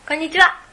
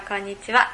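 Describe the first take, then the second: First: Higher, louder hello back; lively echoed greeting; bright answering greeting. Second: Said in the usual way. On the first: Shown as a demonstration. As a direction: fire the greeting straight back, loud and high. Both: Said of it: "こんにちはっていうのがやりたくて".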